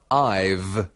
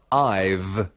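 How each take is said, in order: First: The words are run together into one syllable. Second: The same.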